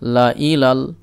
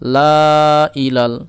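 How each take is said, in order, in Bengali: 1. স্বরটি ছোট রাখা হয়, কোনো টান নেই। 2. স্বরটি টেনে লম্বা করে পড়া হয়। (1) "কোনো টান দিব না" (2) "এই যে টান দিয়ে পড়ছিলাম, কিন্তু এটা পড়বো না"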